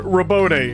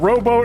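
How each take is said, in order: First: The name sounds different from the word rowboat. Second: The name sounds like the English word rowboat. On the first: "and then robote" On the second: "like rowboat"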